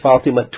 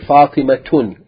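First: The name ends in a vowel, no n. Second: The name ends with an n sound. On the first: The speaker calls it right. "you say Fatimatu" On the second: The speaker calls it wrong. "you don't say Fatimatun"

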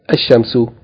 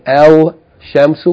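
First: The l merges into a doubled sh sound. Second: The l sound of the article is pronounced. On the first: The speaker calls it right. "we say ash-shamsu" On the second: The speaker calls it wrong. "instead of saying al shamsu"

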